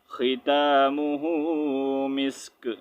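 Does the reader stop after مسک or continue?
stops. The reader stops after مسک.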